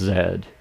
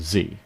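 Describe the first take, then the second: First: The letter name is said the non-American way. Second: The letter name is said the American way. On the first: "Unless you're from the rest of the English-speaking world, in which case it's Z" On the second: "because we're just odd here in America"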